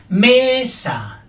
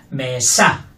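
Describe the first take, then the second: First: "Mesa" with ME high and long, SA dropping; stress on first syllable. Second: "Mesa" with low ME and punched SA; stress on second syllable. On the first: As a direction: punch ME in "Mesa". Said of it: "fuerte la primera". ("Mesa" con ME fuerte) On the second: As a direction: land hard on SA in "Mesa". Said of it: "Fuerte la segunda". ("Mesa" con SA fuerte) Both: Shown as a demonstration.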